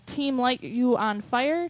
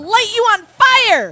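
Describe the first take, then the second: First: It is read flatly, without emphasis. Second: It is read with loud, excited emphasis.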